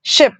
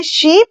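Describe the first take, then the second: First: शिप with a short, clipped i; short i in ship. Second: शीप with a long, pressed ee vowel; long ee in sheep. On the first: Teacher contrasting ship and sheep, short i. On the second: Teacher contrasting sheep and ship, long ee. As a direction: hold the ee in शीप. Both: Shown as a demonstration. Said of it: "pressure के साथ बोलना है शीप".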